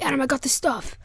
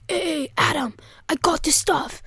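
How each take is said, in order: First: Said in the usual way. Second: Stretched-out "I got the stuff"; conspiratorial call. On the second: Retold or imitated. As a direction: imitate a friend announcing his haul on the sly. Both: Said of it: "that sounds wrong".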